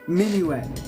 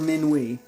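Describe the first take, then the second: First: The final T is pronounced. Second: The final T is silent. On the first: "I was about to say it like I thought it was" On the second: "You give up on the T. You give up with the last vowel"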